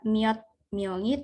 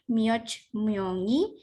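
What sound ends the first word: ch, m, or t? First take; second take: t; ch. First: The first word ends in a t sound. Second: The first word ends in a ch sound. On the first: "bukan juga miot myongi" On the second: "Jadi lafalnya bukan mioch myongi"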